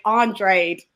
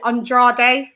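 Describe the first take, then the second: First: Andrade as "AHN-drade", rhymed with "raid"; others' pronunciation. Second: Andrade as "on-DRAH-day"; British pronunciation. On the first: Retold or imitated. Co-host imitating everybody else, Andrade rhymed with "raid". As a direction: Andrade in two syllables, no final "day". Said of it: "I hear everybody else say". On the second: Shown as a demonstration. Co-host puzzling over their own way, Andrade as "on-DRAH-day". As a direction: Andrade in three syllables, "day" at the end. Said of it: "why we pronounce it".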